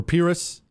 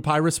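First: Pyrrhus said as PEER-us; "ee" at the start of Pyrrhus; alternative pronunciation. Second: Pyrrhus said as PIE-rus; long "eye" at the start of Pyrrhus; first pronunciation. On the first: Host correcting to the other variant, Pyrrhus as PEER-us. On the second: Host quizzing listeners on the general, Pyrrhus as PIE-rus. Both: Shown as a demonstration. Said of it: "depending on how you pronounce it".

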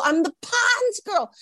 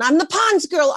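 First: Much higher and slower, "Pond's" sung out with delight; drawn-out happy brag; giddy singsong. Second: "Pond's" lifted high, bragging to family on the phone; a touch of giddy boasting; proud announcement. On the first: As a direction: repeat it, savouring every word. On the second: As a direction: tell everyone back home with pride. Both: Retold or imitated. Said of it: "I called everybody in Portland".

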